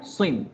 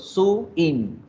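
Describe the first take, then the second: First: The word is said as one syllable. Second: The word is split into two syllables. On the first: The speaker calls it right. "la pronuncio de una sola vez" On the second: The speaker calls it wrong. "Yo no digo su in"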